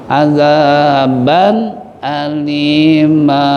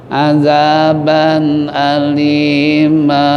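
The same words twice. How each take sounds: The two takes are said the same way.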